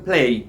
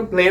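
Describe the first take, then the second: First: "প্লে" with a gliding ei, as "play"; correct pronunciation. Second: "প্লে" with a plain short e, no glide; wrong pronunciation. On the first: Teacher correcting how students say play, "প্লে" pronounced with an ei glide. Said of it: "উচ্চারণটা প্লে". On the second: Teacher showing students how not to say play, "প্লে" mispronounced with a short e. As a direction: say "প্লে" as a flat "pleh". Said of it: "উচ্চারণটা প্লে না". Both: Shown as a demonstration.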